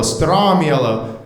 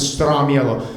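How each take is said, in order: First: Stramiello drawn out slowly, stram-YEL-lo; slow Italian name. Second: Stramiello said as stram-YEL-lo; Italian name. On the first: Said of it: "say that three times fast". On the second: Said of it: "My last name is Stramiello". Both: Shown as a demonstration.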